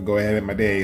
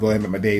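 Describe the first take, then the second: First: It is said at a slower pace. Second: It is said at a faster pace.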